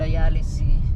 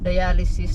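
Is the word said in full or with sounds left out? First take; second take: sounds omitted; full. First: Some sounds of the word are left out. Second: Every sound of the word is pronounced.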